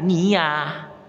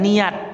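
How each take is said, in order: First: The word ends with an h sound. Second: The word ends with a t sound. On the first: The speaker calls it right. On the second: The speaker calls it wrong.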